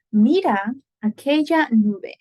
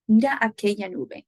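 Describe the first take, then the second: First: Slow, louder, carefully spaced Spanish; teacher modelling "Mira aquella nube" deliberately; slow model sentence. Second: Said in the usual way. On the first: Shown as a demonstration. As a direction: sound out "Mira aquella nube" slowly for students. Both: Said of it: "That's a perfect example".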